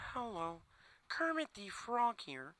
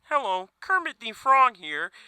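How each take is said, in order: First: It is said in a subdued Kermit voice. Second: It is said in his ordinary voice.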